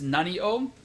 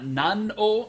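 First: The final i of nani is kept. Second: The final i of nani is dropped. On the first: The speaker calls it right. "it's nani o" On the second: The speaker calls it wrong. "the pronunciation is not nan o"

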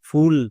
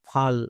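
First: The vowel is a short 'oo' sound. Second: The vowel is an open 'ah' sound. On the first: The speaker calls it right. "ইউ এর short sound হস্যৌ" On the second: The speaker calls it wrong. "আকার বসাই তাহলে এর উচ্চারণটা হবে ফাল, আর এখানেই ভুল হবে"

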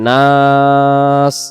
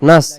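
First: The vowel is drawn out long. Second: The vowel is cut short. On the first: The speaker calls it right. "আলিফ অক্ষর সহ এখানে আদি করতে হবে নাস" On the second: The speaker calls it wrong. "আমরা যদি পড়ি ইলাহিন নাস নাস, তখন এই জায়গায় আলিফ অক্ষরটা বাদ চলে যাবে"

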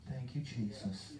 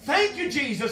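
First: It is said softly with little energy. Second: It is said loudly with strong energy. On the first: A weak, quiet praise when feeling low. The speaker calls it wrong. "you can't just say" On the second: A strong praise when feeling good in church. The speaker calls it right. "You got to say"

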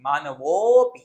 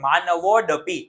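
First: The vowel before 'pi' is stretched out. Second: A d sound is spoken before 'pi'. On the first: The speaker calls it right. "એ અવગ્ર છે એટલે ખેંચવાનું" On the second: The speaker calls it wrong. "ડ નો બોલાય"

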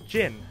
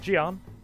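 First: The name is said the way Chinese speakers say it. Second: The name is said the way Westerners say it. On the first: "also pronounced as Jin by the Chinese" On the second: "as Westerners would say it"

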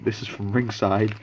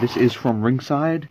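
First: It is said in the speaker's normal accent. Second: It is said in an odd put-on accent.

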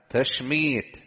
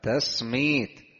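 First: The second consonant is an sh sound. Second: The second consonant is an s sound. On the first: "والمعجمة" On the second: "بالسين المهملة"

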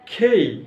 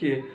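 First: The k has a puff of air after it. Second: The k is plain, with no puff of air. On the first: The speaker calls it right. "এটার উচ্চারণ হবে খেই" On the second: The speaker calls it wrong. "হাজার বছর ধরে করে আসছি কে ... আসলে কে নয়"

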